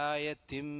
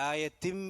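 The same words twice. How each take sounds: Both takes have the same delivery.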